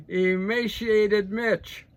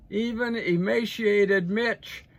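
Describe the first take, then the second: First: Slow, loud and higher, each syllable of emaciated drawn out in scorn; mocking nickname. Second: Even emaciated Mitch said slow, loud and higher, leaning on emaciated; a drawn-out public jeer; mocking nickname again. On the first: Mocking McConnell to the audience, slow loud sneer. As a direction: stretch emaciated Mitch out like a jeer. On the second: Jeering at McConnell for the audience, slow and loud. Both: Real, not acted.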